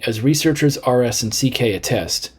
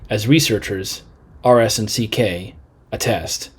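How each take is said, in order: First: There is no pause after 'researchers'. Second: There is a pause after 'researchers'. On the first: The speaker calls it right. "it makes more sense to not pause" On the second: The speaker calls it wrong. "that seems to be too many pauses"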